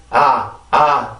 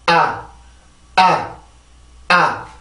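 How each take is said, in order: First: 아 let out freely with a loose throat; relaxed Korean 아. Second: 아 short and checked by tightened vocal cords; tensed English 아. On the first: Teacher showing what not to do, relaxed open 아. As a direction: say 아 loosely, sound simply rising. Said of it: "이게 아니라". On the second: Teacher modelling English stress, tense checked 아. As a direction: block 아 in the throat as it comes up. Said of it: "한번 소리를 이렇게 막아주는 거야". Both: Shown as a demonstration.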